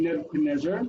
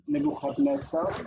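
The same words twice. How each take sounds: First: Said in the usual way. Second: "Nebuchadnezzar" said the Hebrew way, with throaty kh and ts; Hebrew pronunciation. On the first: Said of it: "divides the name Nebuchadnezzar". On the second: Shown as a demonstration. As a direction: say "Nebuchadnezzar" as Ne-vu-khad-NETS-ar, higher pitched. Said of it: "should have an accent on there".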